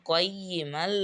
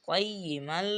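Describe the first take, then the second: Both takes have the same delivery.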